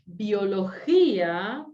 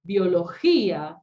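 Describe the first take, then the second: First: Biología drawn out slowly, every syllable clear, rising at the end; teacher slowly models Biología, syllables pulled apart; slow syllable demo. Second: Biología with the stressed í hit louder and held; teacher stresses the hiatus í in Biología. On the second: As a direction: lean on the í of Biología, slowly. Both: Shown as a demonstration. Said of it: "separa la sílaba y acentúa".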